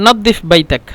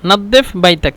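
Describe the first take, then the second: No difference in how they are said.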